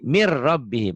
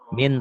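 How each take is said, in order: First: The N is dropped and merges into the R. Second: The first word ends with a clear N sound. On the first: "Dibacanya jadi"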